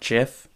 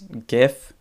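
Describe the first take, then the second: First: It begins with a soft j sound. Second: It begins with a hard g sound. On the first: The speaker calls it wrong. "not GIF" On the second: The speaker calls it right. "because it's graphical interchange format"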